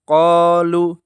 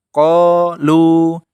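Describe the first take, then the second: First: The final vowel is held only briefly. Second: The final vowel is held for two beats. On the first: The speaker calls it wrong. "yang salah qalu, lu-nya dibaca pendek" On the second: The speaker calls it right. "yang benar caranya adalah qalu, ... tetap dua harokat"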